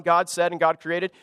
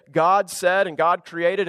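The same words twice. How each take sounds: First: Said in the usual way. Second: Drawn-out, each word weighed; slow deliberate reading. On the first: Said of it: "and now moving on". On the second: Shown as a demonstration. Pastor reads the Genesis line slowly to his congregation. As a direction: read it slowly, like a formal refrain. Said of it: "it doesn't just say".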